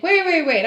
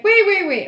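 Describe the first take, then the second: First: Higher, louder retold interjection; quick urgent "wait" as it dawns on you; sudden realization. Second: High, loud retold call. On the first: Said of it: "all of a sudden I was like". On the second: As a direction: call after someone walking off, urgently. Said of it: "I leaned my head out the window".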